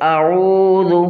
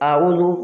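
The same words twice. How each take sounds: First: The vowel is drawn out long. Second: The vowel is cut short. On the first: The speaker calls it right. "بلکہ اعوذ برب الفلق" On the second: The speaker calls it wrong. "اعوذ نہیں"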